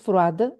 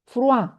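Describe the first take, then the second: First: The final d is pronounced. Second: The final d is silent. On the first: The speaker calls it wrong. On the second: The speaker calls it right.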